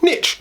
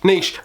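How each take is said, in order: First: The word is said the American way. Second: The word is said the British way. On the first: "Depending if you're American" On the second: "or the U K"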